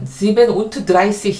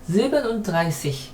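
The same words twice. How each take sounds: First: Every word is said fully and distinctly. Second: The middle word is slurred and reduced. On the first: The speaker calls it wrong. "실제로 발음할 때는 sieben und dreißig 이러진 않아요" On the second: The speaker calls it right. "이 정도로 요거를 이렇게 살짝 얼버무립니다"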